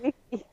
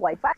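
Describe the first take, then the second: First: It is said the way Spaniards say it. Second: It is said the usual international way.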